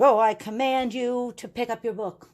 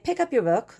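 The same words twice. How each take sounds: First: Hammed-up grand command, pitched higher; mock-regal order, drawn over the whole line. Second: Said in the usual way. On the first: Teacher parodying how nobody gives classroom commands, mock commanding. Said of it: "We don't talk like that". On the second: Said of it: "But we will say".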